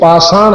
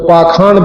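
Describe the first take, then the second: First: The middle consonant is an 'sh' sound. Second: The middle consonant is a 'kh' sound. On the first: This is how it is read. "पाषाण हम पढ़ते हैं" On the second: This is how it is also spoken. "पाखाण भी कहते हैं"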